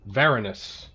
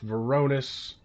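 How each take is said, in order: First: The stress is on the first syllable. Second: The stress is on a later syllable. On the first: The speaker calls it right. "Emphasis on the first syllable" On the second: The speaker calls it wrong.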